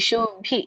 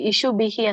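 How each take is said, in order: First: The final h is only lightly breathed. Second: The final h is fully voiced with a vowel. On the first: The speaker calls it right. "ಸ್ವಲ್ಪ ಹ ಬರ್ಬೇಕಷ್ಟೇ" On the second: The speaker calls it wrong. "ನೀವು ಇಲ್ಲಿ ಇಶು ಬಿಹಿ ಅಂತ ಹೇಳಿದ್ರಲ್ಲ"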